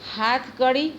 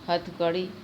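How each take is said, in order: First: The first vowel is long. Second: The first vowel is short. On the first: "प्रथम पद के दीर्घ स्वर" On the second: "प्रायः हर्ष हो जाते हैं"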